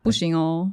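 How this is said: It is said in a soft, gentle tone.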